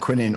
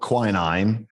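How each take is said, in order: First: It is said the speaker's own, British way. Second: It is said the American way.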